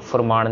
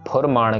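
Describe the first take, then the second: First: The word begins with an f sound. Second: The word begins with an aspirated p. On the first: The speaker calls it wrong. "फुरमान नहीं कहना" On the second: The speaker calls it right. "आपके lips touch होंगे एक दूसरे के साथ"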